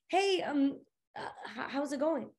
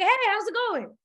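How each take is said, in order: First: It is said hesitantly, with fillers and stammering. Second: It is said smoothly and comfortably.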